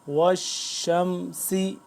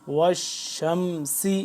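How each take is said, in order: No difference in how they are said.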